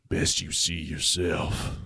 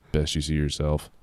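First: Low, slow and quiet sheriff; cold flat warning, much lower; icy sheriff telling him flatly. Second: Low, quiet flat sheriff; deadpan lower warning; sheriff's icy flat line, retaken; said flatly. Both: Acted. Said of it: "he said flatly".

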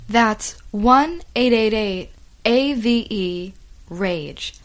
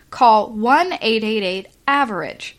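First: "A V E rage" spelled letter by letter, slow; spelled out slowly. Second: Said in the usual way. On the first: Shown as a demonstration.

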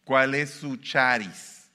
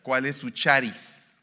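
First: ¿Cuál es su charis? even slower, charis drawn out; emphatic repeat. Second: ¿Cuál es su charis? loud and slow, CUÁL stressed; emphatic Greek word. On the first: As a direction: linger on charis. (repetición más lenta, charis alargado) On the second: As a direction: spell out charis slowly. (Cuál recalcado, lento y fuerte) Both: Shown as a demonstration. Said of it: "lo voy a decir en griego".

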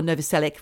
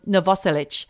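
First: "Novoselic" as NO-vo-SEL-ick, ending in a k; alternative pronunciation. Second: "Novoselic" as no-VOSS-elitch; second-syllable stress. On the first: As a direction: say "Novoselic" with a full NO and a hard final k. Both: Shown as a demonstration. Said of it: "whichever way you like to say it".

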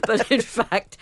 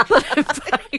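First: Said in the usual way. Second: Laughing through the words. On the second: Real, not acted. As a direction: giggle as you say it. Laughing while correcting herself.

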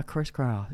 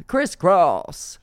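First: Said in the usual way. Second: High, loud exclamation; exclaimed. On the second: Pretend. Repeating it to co-host for comic effect, exclaimed high and loud.

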